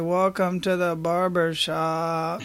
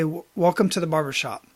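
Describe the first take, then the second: First: It is said casually and mechanically. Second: It is said warmly and sincerely.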